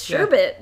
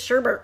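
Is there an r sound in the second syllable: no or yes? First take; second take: no; yes. First: The second syllable has no r sound. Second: The second syllable has an r sound. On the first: The speaker calls it right. "It's sherbet" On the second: The speaker calls it wrong. "everyone says sherbert. ... There's no second R"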